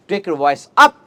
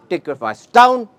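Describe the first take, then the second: First: "up" lifted at the end with a rising tune; voice raised. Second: "down" brought to a falling close; voice lowered. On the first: Speaker shows students how to vary intonation, voice raised. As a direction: push the voice upward on "up". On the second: Speaker shows students how to vary intonation, voice lowered. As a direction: let the tune drop on "down". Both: Shown as a demonstration.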